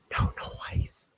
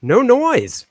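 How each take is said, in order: First: Breathy whispered no noise; playful whispered repeat. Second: Said in the usual way. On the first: Pretend. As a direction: hush it like a secret. Repeats claim plain then whispered.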